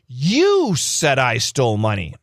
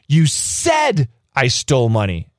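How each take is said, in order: First: The word 'you' carries the main stress. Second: The word 'said' carries the main stress. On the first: This person, and nobody else, did it. "You did. Nobody else did. You" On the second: The person actually spoke the words aloud. "You said it. ... You actually spoke the words"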